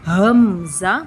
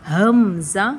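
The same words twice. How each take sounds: No difference in how they are said.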